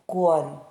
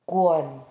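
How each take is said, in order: The two takes are said the same way.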